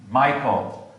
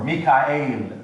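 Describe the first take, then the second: First: Said in the usual way. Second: Mikael said slowly, mee-kha-EL; Hebrew pronunciation. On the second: Shown as a demonstration. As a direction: say Mikael the Hebrew way in three syllables. Hebrew name beside its English form.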